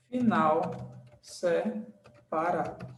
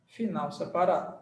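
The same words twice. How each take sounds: First: Broken up slowly, SE, then PARADO; slow dictation. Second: Said in the usual way. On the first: Shown as a demonstration. Teacher writing the rule's ending for students, slow dictation.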